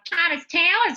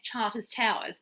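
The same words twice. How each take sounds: First: It is said in a broad North Queensland accent. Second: It is said in a neutral, unmarked accent. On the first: Listeners understand which place is meant. The speaker calls it right. "you've got to have the North Queensland lingo" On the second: Listeners may not understand which place is meant. The speaker calls it wrong. "sometimes when you say it, Charters Towers, people don't understand"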